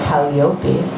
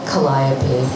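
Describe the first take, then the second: First: The name is pronounced the Greek way. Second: The name is pronounced the English way.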